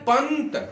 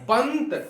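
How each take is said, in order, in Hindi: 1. t से पहले एक छोटी n ध्वनि सुनाई देती है। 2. t से पहले एक छोटी n ध्वनि सुनाई देती है।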